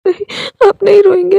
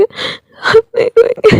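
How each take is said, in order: First: Crying plea. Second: Slow crying plea. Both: Acted. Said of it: "वो रोने लगा था".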